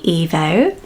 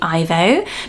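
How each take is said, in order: First: The name starts with an 'ee' sound. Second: The name starts with an 'eye' sound. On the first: This is the intended way of saying it. "it's the E at the beginning" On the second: This is the usual British way of saying it. "naturally in the U K we might say Ivo"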